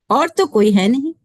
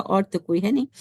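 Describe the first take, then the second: First: Emphatic declaration. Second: Said in the usual way. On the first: Shown as a demonstration. First take of repeated line.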